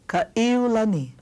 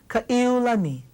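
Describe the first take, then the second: No difference in how they are said.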